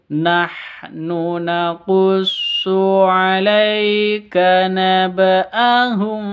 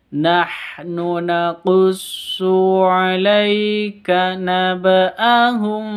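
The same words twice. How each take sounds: No difference in how they are said.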